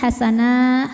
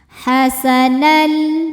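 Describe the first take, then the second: First: The word ends on a drawn-out open vowel. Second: The word ends merging straight into an l. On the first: The reader pauses after this word. "kalau berhenti hasanah hukumnya mad iwad" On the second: The reader continues into the next word. "masuk ke lam langsung dengan sempurna"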